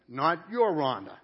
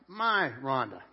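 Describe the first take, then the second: First: "your" stressed in contrast. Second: "my" stressed to claim her as his own. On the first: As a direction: lean on the word "your" to rule it out. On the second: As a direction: lean on the word "my". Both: Shown as a demonstration. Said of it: "whenever you use the word my".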